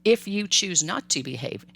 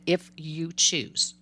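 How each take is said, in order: First: Said in the usual way. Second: If you choose drawn out slowly; stress on choose. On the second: Shown as a demonstration. Parent stressing that behaving is the child's choice, slowly. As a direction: lean on choose, slow and deliberate. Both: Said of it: "and you hear how I said".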